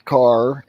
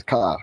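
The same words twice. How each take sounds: First: "car" said with a full clear R at the end; R pronounced. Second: "car" said "cah", with no R at the end; Boston dropped R. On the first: Explaining how schools teach kids to say "car" with the R. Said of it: "They, they pronounce". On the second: Telling how everyone back home drops the R in "car". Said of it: "everyone just says car". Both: Shown as a demonstration.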